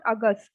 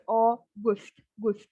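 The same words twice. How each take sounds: First: August with a short, neutral second vowel, 'uh-gust'; English-style August. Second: August slowly split, with 'goost' as second syllable; German August, syllable by syllable. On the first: Teacher shows learners the wrong August, said as in English. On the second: Teacher models German August slowly, ending in a rounded 'goost'. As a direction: stretch August, then repeat Gust alone. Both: Shown as a demonstration. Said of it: "It's not August".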